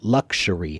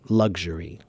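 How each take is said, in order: First: The middle consonant is a hard ks sound. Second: The middle consonant is a soft g sound. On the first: "difficult for you to pronounce it as luxury" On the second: "it's really more of a G sound than it is a K S sound"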